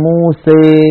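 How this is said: The final vowel leans strongly toward 'ee'.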